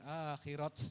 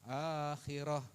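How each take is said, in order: First: The word ends with a t sound. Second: The word ends with an h sound. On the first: The speaker calls it wrong. "bukan akhirat" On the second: The speaker calls it right. "Akhirah bukan akhirat"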